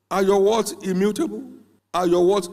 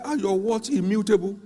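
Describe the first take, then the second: First: Louder, hammering the question home; louder repeated challenge. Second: Raised, insistent challenge; pressing question. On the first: Preacher pressing the young man again, building louder. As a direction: push harder each time. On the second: Preacher retelling how he challenged the young man, insistent. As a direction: demand it of him firmly. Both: Retold or imitated.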